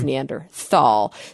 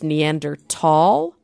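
First: The word is pronounced the English way. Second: The word is pronounced the German way. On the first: "we use the English translation, which is Neanderthal" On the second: "in the German, it's pronounced Neanderthal"

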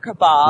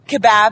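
First: It is said in an American accent. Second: It is said in a British accent. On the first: "instead of kebab" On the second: "in England, because they do kebab"

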